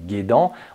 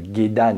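First: The word is said with French sounds. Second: The word is said with Japanese sounds. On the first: The speaker calls it wrong. "et non pas de" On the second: The speaker calls it right. "on parle de gedan"

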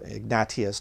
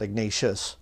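First: The name is said with Spanish pronunciation. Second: The name is said with English pronunciation. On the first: The speaker calls it right. "that's how you pronounce it in Spanish too" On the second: The speaker calls it wrong. "That's the English way to say it"

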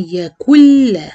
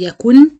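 First: The final n is merged away completely. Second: The final n is clearly pronounced. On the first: The speaker calls it right. "ما فيش غنة" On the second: The speaker calls it wrong. "ما حدش يحاول ينطق النون"

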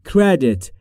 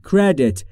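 The two takes are said the same way.

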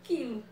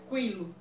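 First: It starts with a plain k sound. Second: It starts with a kw sound. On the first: The speaker calls it right. "Eu pronuncio quilo" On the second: The speaker calls it wrong. "eu não posso pronunciar quilo"

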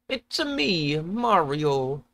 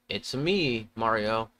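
First: It is said in a put-on character voice. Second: It is said in the speaker's normal voice.

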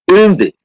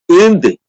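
The two takes are said the same way.

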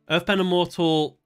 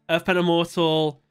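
Both takes have the same delivery.

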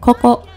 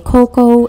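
First: The o vowels are pure and steady. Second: The o vowels glide like an English diphthong. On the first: The speaker calls it right. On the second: The speaker calls it wrong.

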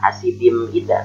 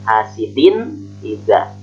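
First: The nun sound is not pronounced clearly. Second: The nun sound is pronounced clearly. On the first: The speaker calls it wrong. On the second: The speaker calls it right.

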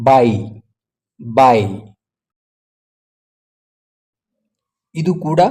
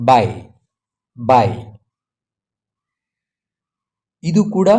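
No difference in how they are said.

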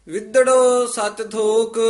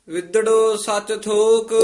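Both takes have the same delivery.

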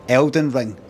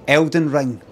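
No difference in how they are said.

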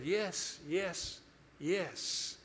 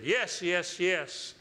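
First: It is said quietly, without force. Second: It is said loudly, with authority.

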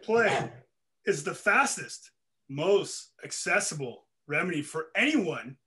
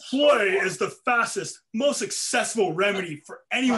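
First: It is read slowly. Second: It is read fast.

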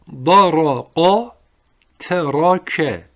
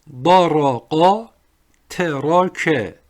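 Both takes have the same delivery.

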